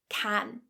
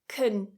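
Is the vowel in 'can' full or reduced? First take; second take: full; reduced. First: The word has a full, very open vowel. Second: The word has a weak, relaxed vowel. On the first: The word is stressed. "the strong version of this word, can, it's a very open vowel" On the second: The word is unstressed in a sentence. "we're going to say it very weakly with our mouth a little bit more relaxed"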